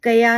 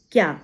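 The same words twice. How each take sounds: First: कया pulled apart as two syllables, ka-yaa; split into syllables. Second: क्या said short as a single syllable, kyaa; one syllable. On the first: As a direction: break the cluster with a vowel, louder: कया. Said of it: "कया नहीं बोलते". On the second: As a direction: join k and y with no vowel between: क्या. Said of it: "नहीं बोलते". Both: Shown as a demonstration.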